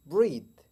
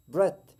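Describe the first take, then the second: First: ब्रीथ with a long ee; wrong take, ब्रीथ stretched to breeth; wrong breath. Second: ब्रेथ with a gentle short e; right breath. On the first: Teacher demonstrates the wrong ब्रीथ. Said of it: "wrong pronunciation". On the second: Teacher models ब्रेथ with a gentle e. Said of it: "ई को थोड़ा आहिस्ता बोलेंगे". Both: Shown as a demonstration.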